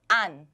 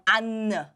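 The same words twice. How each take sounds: First: The final n is held without releasing air. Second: The final n is released with a puff of air. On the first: The speaker calls it right. "keep the air in your mouth" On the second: The speaker calls it wrong. "if you release the air, it, it, it will become 안"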